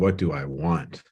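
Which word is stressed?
want. The stress falls on the word want.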